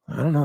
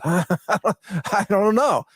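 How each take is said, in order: First: Said in the usual way. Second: Slow, drawn-out laughing shrug; chuckling I don't know. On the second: Real, not acted. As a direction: laugh it off, stretching each word. Laughs at the long title.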